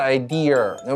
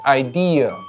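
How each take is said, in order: First: The word ends with an added r-colored sound. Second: The word ends in a plain vowel without r-coloring. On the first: The speaker calls it wrong. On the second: The speaker calls it right.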